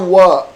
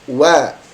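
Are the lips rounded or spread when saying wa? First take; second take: rounded; spread. First: The vowel sounds rounded, without a smile. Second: The vowel sounds spread, as if smiling. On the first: The speaker calls it wrong. "tidak dibaca wa" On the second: The speaker calls it right. "Karena dia huruf senyum"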